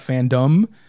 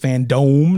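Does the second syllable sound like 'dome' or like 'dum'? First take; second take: dum; dome. First: The second syllable sounds like 'dum'. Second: The second syllable sounds like 'dome'. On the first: The speaker calls it wrong. "not FanDOME" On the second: The speaker calls it right. "It is FanDOME, ... as in a dome"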